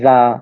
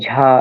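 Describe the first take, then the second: First: It ends on a plain vowel, like ja. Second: It starts with a breathy jh, like jha. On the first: "বাংলাদেশে উচ্চারণ সাধারণত করে জা, জা এরকম" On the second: "তবে ঝা অনেকে বলে"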